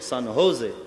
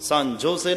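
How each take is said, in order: First: The second word begins with an H sound. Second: The second word begins with a J sound. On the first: The speaker calls it right. "જ ને હ pronounce કરવાનો" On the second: The speaker calls it wrong. "San જોસે નહીં"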